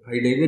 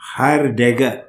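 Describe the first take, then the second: First: The name is pronounced in a relaxed everyday way. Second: The name is pronounced with careful, effortful articulation. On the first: This is how people here usually say it. "हम लोग बोलते हैं हाइडेगर" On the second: This is the proper original pronunciation. "ठीक तरह प्रोनाउंस करने में बड़ी मेहनत होती है उस नाम में"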